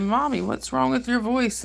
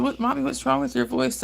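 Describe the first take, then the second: First: Put-on higher, slower little girl voice, lightly done; imitating little daughter. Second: Put-on higher little girl voice, lightly done; imitating little daughter. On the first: Daughter asking mommy about her sick voice, lightly voiced child. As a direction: voice her sweet worried daughter. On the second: Daughter worried about mom's lost voice, light child voice. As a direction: play the concerned small daughter. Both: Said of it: "She said".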